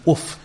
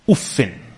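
First: The word ends on a bare consonant. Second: The word ends with an added 'in' syllable. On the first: "you can say with the sukoon" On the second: "with a kasrah bit tanween"

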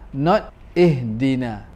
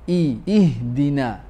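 First: The vowel after the d is reduced. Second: The vowel after the d is a full i. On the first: The speaker calls it wrong. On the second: The speaker calls it right. "pronounce ihdina with complete kasrah"

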